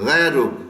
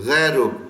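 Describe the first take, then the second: Both takes have the same delivery.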